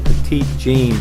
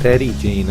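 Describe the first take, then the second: First: The first word sounds like 'petite', stress at end. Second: The first word sounds like 'petty', stress at start. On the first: The speaker calls it wrong. "I want to call it Petite Jean" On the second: The speaker calls it right. "but it's Petty Jean, I think is the way they pronounce it"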